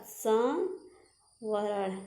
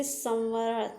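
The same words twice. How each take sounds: First: संवरण stretched very slowly, syllable by syllable; teacher drawing out संवरण; slow drawn-out word. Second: Said in the usual way. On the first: Shown as a demonstration. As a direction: draw out संवरण for the students. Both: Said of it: "संवरण ऐसे".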